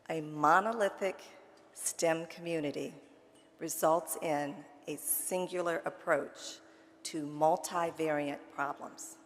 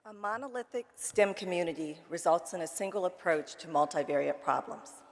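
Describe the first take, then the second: First: It is said slowly and deliberately. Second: It is said at a normal speed.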